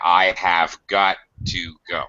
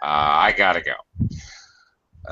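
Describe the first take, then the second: First: Every word of 'have got to' is said fully. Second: 'Have got to' is squeezed into 'gotta'.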